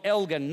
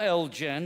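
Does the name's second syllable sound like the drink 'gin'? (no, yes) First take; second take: no; yes. First: The second syllable does not sound like 'gin'. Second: The second syllable sounds like the drink 'gin'. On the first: The speaker calls it right. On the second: The speaker calls it wrong.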